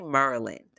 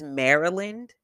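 First: It is said the local DC-area way. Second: It is said the California way.

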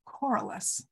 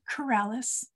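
First: It starts like 'coral' and ends with 'us'. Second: It sounds like the name of a medicine. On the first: The speaker calls it right. "it is pronounced Coralis" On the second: The speaker calls it wrong. "not Coralis. Go see your doctor about Coralis"

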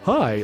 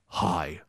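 First: It is said in Bruce Wayne's voice. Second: It is said in Batman's voice.

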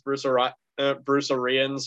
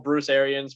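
First: The last name is said in an altered way. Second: The last name is said the usual way. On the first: The speaker calls it wrong. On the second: The speaker calls it right.

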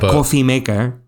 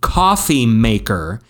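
First: It is said quickly in a Spanish accent. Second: It is said in a plain English accent.

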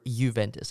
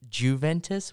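First: The name begins without a J sound. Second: The name begins with a J sound.

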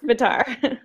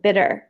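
First: The name rhymes with the word guitar. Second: The name sounds like the word bitter. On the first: The speaker calls it right. "It's Bitar" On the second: The speaker calls it wrong. "The other way to pronounce it is like, it's like bitter. And it's not that"

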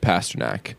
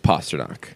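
First: The first syllable does not sound like 'pasta'. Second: The first syllable sounds like 'pasta'. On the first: The speaker calls it wrong. "Not like that" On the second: The speaker calls it right. "it's Pasternak like pasta"

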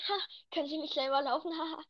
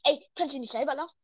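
First: It is said laughingly, as a joke. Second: It is said seriously, in an angry tone.

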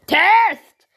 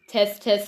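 First: The word is recorded at full, very loud level. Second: The word is recorded at a normal level.

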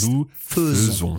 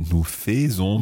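First: The first syllable of faisons sounds like 'fuh'. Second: The first syllable of faisons sounds like 'fay'. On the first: The speaker calls it right. "but nous faisons" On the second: The speaker calls it wrong. "we don't say nous faisons"

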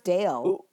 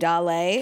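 First: The name is said in one syllable, English-style. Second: The name is said in two syllables, Spanish-style. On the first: The speaker calls it right. "it's pronounced Dale" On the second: The speaker calls it wrong. "Because of [name]. So I have been calling him [name]"

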